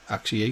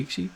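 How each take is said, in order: First: "Axie" said AK-see; short-a pronunciation. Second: "Axie" said AKE-see, questioning; long-a pronunciation. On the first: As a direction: try "Axie" with the a of axe. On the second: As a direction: try "Axie" with the a of ache. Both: Shown as a demonstration. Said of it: "I'm not sure".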